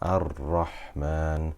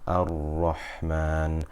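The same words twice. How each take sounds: First: The r is trilled lightly with few taps. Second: The r is held without any trilling. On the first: "Here there's a little bit of trilling" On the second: "I'm avoiding the trilling"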